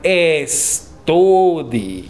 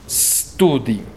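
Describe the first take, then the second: First: An e vowel comes before the s. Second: The word starts directly with the s. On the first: The speaker calls it wrong. "no digan estudi" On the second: The speaker calls it right. "Hay que decir studi"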